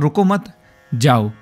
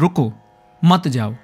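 First: There is a pause right after 'mat'. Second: There is a pause right after 'ruko'. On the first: The listener may leave. "तो मैं ये कहना चाह रहा हूँ कि आप यहाँ से जा सकते हैं" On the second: The listener should stay here. "तो मैं कहना चाह रहा हूँ कि आप यहाँ रुक जाइए"

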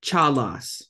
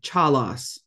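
No difference in how they are said.

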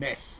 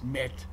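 First: The word ends with an s sound. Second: The word ends with a t sound. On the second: "This the modern Israeli pronunciation"

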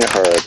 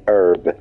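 First: The word is said in a British accent. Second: The word is said in an American accent.

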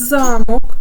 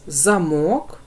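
First: The stress is on the first syllable. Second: The stress is on the second syllable. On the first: "Перший склад ми вимовляємо з більшою силою голосу" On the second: "Другий склад ми вимовляємо з більшою силою голосу"

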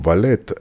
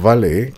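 First: The final T is clearly pronounced. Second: The final T is silent, stress on the end. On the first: A personal servant who attends to gentlemen. "ahora sí, pronunciando la T" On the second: Someone who parks your car at a restaurant. "con T muda y acento en la E"

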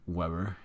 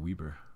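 First: The name is said with an English-style pronunciation. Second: The name is said with a European-style pronunciation. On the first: "Shea Weber is Canadian, right? So can't assume that it's Weber" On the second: "It might be Weber. You know, the European way"

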